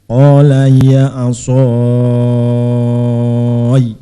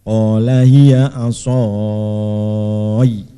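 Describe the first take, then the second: No difference in how they are said.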